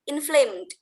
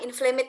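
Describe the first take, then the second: First: The ending goes straight to the d sound. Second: The final e is sounded as an extra syllable. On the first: The speaker calls it right. "Langsung ke D-nya. E-nya jangan dibaca" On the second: The speaker calls it wrong. "jangan inflamed lagi ya"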